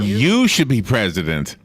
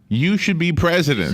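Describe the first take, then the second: First: The word 'you' is strongly stressed. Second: No special stress falls on 'you'.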